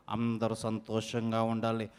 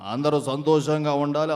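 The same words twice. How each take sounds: First: Much lower, much softer blessing; health show host. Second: Low elder. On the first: Mimic repeats the wish as a hushed low health host. Same line, new voice. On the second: Mimic wishes everyone well as a low-voiced dignitary. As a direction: lower elder's wish, normal loudness. Same line, earlier voice. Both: Acted.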